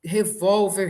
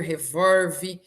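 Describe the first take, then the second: First: "Revólver" com l soando u: revóuver. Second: "revolve" dito revórvi; L vira R. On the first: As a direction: diga "Revólver" com R final. ("Revólver" na pronúncia padrão, com ól) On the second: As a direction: troque o l de "revolve" por r. ("revolve" como revórvi, sem R final) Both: Shown as a demonstration. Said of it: "O L se transformar em R".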